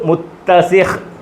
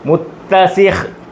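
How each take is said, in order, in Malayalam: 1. ഈ വാക്ക് ശുദ്ധ അന്ത്യ വ്യഞ്ജനത്തിൽ അവസാനിക്കുന്നു. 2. ഈ വാക്ക് ശുദ്ധ അന്ത്യ വ്യഞ്ജനത്തിൽ അവസാനിക്കുന്നു.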